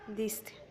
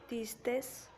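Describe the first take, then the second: First: The word ends with a vowel, no s. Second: The word ends with an added s sound. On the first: The speaker calls it right. "se debe de decir diste" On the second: The speaker calls it wrong. "se le está agregando la S"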